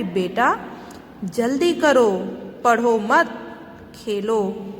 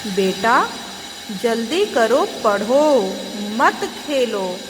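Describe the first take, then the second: First: "पढ़ो मत" as one phrase, then खेलो alone; pause after मत. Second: पढ़ो set apart, then "मत खेलो" as one phrase; pause after पढ़ो. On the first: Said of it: "दूसरा वाक्य पिता बोल रहे हैं". ("पढ़ो मत" साथ में, फिर विराम, "खेलो") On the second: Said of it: "माँ कहती है". ("पढ़ो" के बाद विराम, "मत खेलो" साथ में) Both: Shown as a demonstration.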